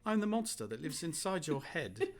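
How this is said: It is read in a put-on British accent.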